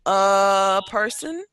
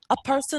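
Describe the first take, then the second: First: The phrase is said slowly and haltingly. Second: The phrase is said quickly and smoothly. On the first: It sounds like the speaker is thinking. "when you're reading slowly" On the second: It sounds natural. "when you start to say it a little more quickly"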